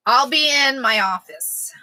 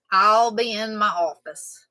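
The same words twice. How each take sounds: First: Breathy stage whisper, slow. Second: Said in the usual way. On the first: Shown as a demonstration. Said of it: "whispered take beside a plain one". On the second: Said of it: "plain take after the whisper".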